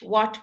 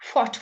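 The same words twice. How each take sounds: First: It starts with a plain w sound. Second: It starts with a breathy hw sound. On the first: "Anything W H also, you don't say the H" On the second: "they used to pronounce it as"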